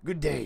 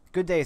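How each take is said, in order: First: It is said in a rough, gravelly voice. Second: It is said in a plain, normal voice.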